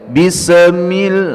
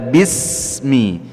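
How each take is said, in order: First: The consonant with sukun is bounced with an echo. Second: The consonant with sukun is held without an echo. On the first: The speaker calls it wrong. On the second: The speaker calls it right.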